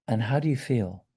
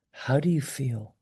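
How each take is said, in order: First: Soft, softer questioning; very gently. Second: Hushed, tender question; very gently. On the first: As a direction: ask it gently, as if making space for someone. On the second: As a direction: ask softly so the person can open up. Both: Shown as a demonstration. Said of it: "Just very gently".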